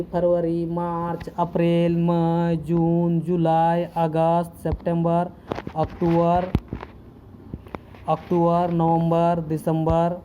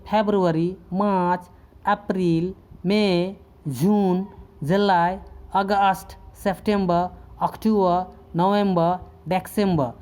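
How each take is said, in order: First: Months said the everyday Hindi way, फरवरी as pharvari, अप्रैल as aprail, दिसंबर as disambar; Hindi-style month names with every r sounded; common Hindi way. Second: फरवरी as febru-ary, अप्रैल as epril, सितंबर as september, दिसंबर as december, final r dropped; English-style month names, अक्टूबर as oktuber with the r left off; English pronunciation. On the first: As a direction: read फरवरी to दिसंबर the way most people say them, full Hindi vowels and a clear final r. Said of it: "ऐसे ही पढ़ते हैं, ज़्यादातर लोग". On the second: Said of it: "इसका उच्चारण जब इस तरह से आप करेंगे".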